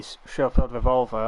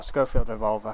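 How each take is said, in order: First: Schofield said with a soft sh, "SHOH-feeld revolver". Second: Schofield said with a hard sk, "SKOH-feeld revolver". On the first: To a Discord friend, says Schofield as "SHOH-feeld". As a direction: Schofield starting with sh, not sk. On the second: To a Discord friend, offers Schofield as "SKOH-feeld". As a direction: Schofield starting with sk, not sh. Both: Shown as a demonstration. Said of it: "however you want to pronounce it".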